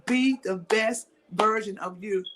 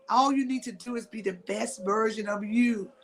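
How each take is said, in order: First: "Be the best version of you" slower and louder, each word leaned on; slow emphatic repeat. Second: Said in the usual way. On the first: Shown as a demonstration. Speaker urges young athletes, slow emphatic stress. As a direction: drive it home, word by word.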